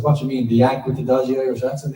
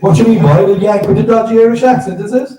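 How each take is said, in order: First: Said in the usual way. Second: Put-on high, loud Cork shop lad slagging, Cork accent. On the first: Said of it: "the guy behind the counter says". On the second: Shop clerk in Cork mocks the actor, loud in a Cork accent. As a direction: do the Cork lad's mocking Cork accent.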